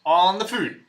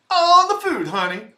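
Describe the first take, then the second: First: Said in the usual way. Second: High, loud, sassy on the food; sassy camp. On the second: Pretend. Streamer repeating his line with sassy flair. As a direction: fling it out with diva sass.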